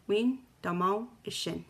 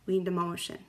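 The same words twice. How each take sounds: First: It is said slowly. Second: It is said at normal speed.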